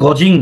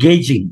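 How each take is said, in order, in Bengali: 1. প্রথম স্বরধ্বনিটি 'aw' এর মতো শোনায়। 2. প্রথম স্বরধ্বনিটি 'ay' এর মতো শোনায়। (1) "এইটার উচ্চারণ গজিং না" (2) "এটার উচ্চারণ হচ্ছে গেজিং"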